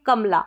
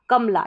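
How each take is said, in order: The two takes are said the same way.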